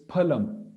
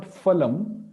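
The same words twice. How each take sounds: First: 'phalam' starting on closed lips, not f; aspirated p. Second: 'phalam' starting with an English f; wrong f pronunciation. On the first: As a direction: say 'phalam' with p plus a puff of air. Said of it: "it's phalam". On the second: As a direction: say 'phalam' as falam. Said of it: "it's not phalam". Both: Shown as a demonstration.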